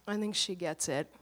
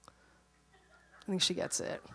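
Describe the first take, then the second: First: Said in the usual way. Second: Slow whispered aside; slow gentle whisper, calming the mother; whispered repeat. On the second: Retold or imitated. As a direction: breathe it out slowly, unvoiced. Husband's reply repeated whispered.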